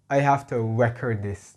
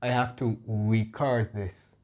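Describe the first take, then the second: First: Record said with stress on REC, like the noun; I have to record this, with record as RE-cord; the wrong take, noun stress on a verb. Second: Record said as re-CORD with stress on the end; I have to record this, with record as the verb re-CORD; the right take, slowed down. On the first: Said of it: "you can't say". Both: Shown as a demonstration.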